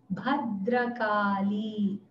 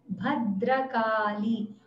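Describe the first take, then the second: Both takes have the same delivery.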